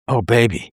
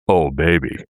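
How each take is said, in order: First: It is said in a normal voice. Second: It is said in a much deeper voice.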